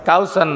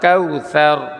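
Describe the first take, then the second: First: The middle consonant is a hissing s. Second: The middle consonant is a soft th. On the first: The speaker calls it wrong. "কাউসার না" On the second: The speaker calls it right. "শুধু জিব্বাটা দাঁতের আগায় লাগবে"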